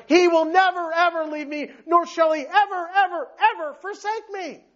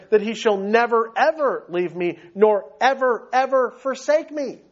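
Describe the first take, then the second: First: "never, ever" and "ever, ever, ever" punched out higher and higher; preacher driving home "ever, ever, ever forsake me" with rising emphasis; emphatic stress on EVER. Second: "never, ever" and "ever, ever" leaned on lightly; steady reading, mild stress on "never, ever"; measured emphasis. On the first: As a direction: hammer every "ever" like an unbreakable promise. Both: Shown as a demonstration. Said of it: "This thing's emphatic".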